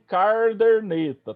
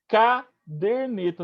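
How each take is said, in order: First: An r sound comes in both first syllables. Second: The r sound comes only in the second syllable. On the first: The speaker calls it wrong. "e nem carderneta" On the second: The speaker calls it right. "caderneta, de caderno"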